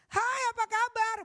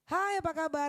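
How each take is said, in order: First: The greeting is shouted loudly. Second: The greeting is spoken at normal volume. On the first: The speaker calls it wrong. "dia bukan teriak. Ya, bukannya, ... Bukan seperti itu. Kalau di outdoor seperti itu boleh" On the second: The speaker calls it right. "adalah suara perut"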